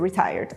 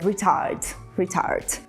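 First: The word is said in a plain modern way. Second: The word is said in an old-fashioned way.

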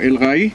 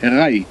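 First: The article keeps its 'l', sounding 'al'. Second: The article is assimilated, sounding 'ar'. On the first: The speaker calls it wrong. "לא אל-ראי" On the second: The speaker calls it right. "אר-ראי, לא אל-ראי"

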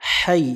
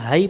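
First: The h is harsh, pushed from the throat. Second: The h is light and breathy. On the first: The speaker calls it right. "এখানে লম্বা হা আছে, এটা অবশ্যই আমরা সতর্কভাবে উচ্চারণ করব।" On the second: The speaker calls it wrong. "এখানে হাই পড়া যাবে না।"

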